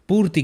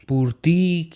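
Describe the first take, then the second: First: The final vowel is very short. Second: The final vowel is drawn out long. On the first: The speaker calls it right. "छोटी की मात्रा का बहुत छोटा सा हो रहा है" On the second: The speaker calls it wrong. "ऐसा नहीं हो रहा है ना"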